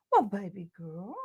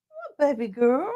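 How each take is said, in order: First: Soft cooing to the puppy; gentle pet voice; dog talk. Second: Higher sing-song puppy voice; higher cooing pet voice; higher dog talk. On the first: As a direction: coo softly at the dog. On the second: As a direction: lift it up for the dog. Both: Real, not acted. Talking to her dog.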